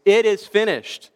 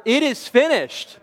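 First: Raised, higher retold cry from the cross; loud cry. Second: Much higher, insistent stage cry; louder repeated cry. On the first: Passion-play Jesus on the cross, a loud cry. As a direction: cry it out like an actor's big final line. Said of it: "cried out in a loud voice". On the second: Retold or imitated. Actor Jesus to soldiers who missed their cue, crying out louder. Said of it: "cried out even louder".

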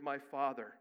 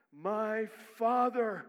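First: Said in the usual way. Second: "my Father" drawn out, louder and higher; "my Father" stretched and pleading; slow intense plea. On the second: Shown as a demonstration.

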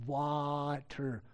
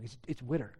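First: "water" with an open aw vowel; standard water. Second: "witter" with a short i, like wit; Philadelphia witter. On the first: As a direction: say "water" the standard way, wah-ter. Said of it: "W A T E R". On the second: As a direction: say "witter" rhyming with bitter, Philly style. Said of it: "you're saying it wrong". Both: Retold or imitated.

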